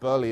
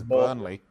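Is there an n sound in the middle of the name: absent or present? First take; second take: absent; present. First: The name is said without an n sound. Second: The name is said with an n sound. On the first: The speaker calls it wrong. "It's not Burley" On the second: The speaker calls it right. "it's Burnley"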